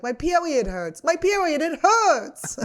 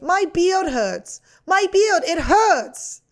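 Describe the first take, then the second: First: Put-on high toddler whine; whiny toddler. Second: Put-on high, slow toddler whine; whiny toddler. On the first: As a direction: whimper it like a small child. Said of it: "and it goes". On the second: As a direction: whine it like a hurt little kid. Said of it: "this is my impression of a toddler".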